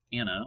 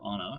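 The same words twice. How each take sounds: First: "Anna" with the a of "cat"; short-a pronunciation. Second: "Anna" with the a of "father"; broad-a pronunciation. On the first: Forecaster offering one way to say the storm's name, "Anna" as AN-uh. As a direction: say "Anna" as AN-uh, flat American a. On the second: Forecaster offering another way to say the storm's name, "Anna" as AH-nuh. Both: Shown as a demonstration. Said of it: "not sure the actual official pronunciation".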